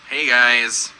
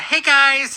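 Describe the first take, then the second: First: The greeting sounds flat and displeased. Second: The greeting sounds bright and cheerful. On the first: "that tone of voice. She is not happy" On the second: "It's not a"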